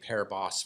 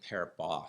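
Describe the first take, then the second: First: The final S is pronounced. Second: The final S is silent. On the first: The speaker calls it wrong. "I've been saying Paribas forever" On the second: The speaker calls it right. "I think it's actually Paribas. ... don't pronounce the S"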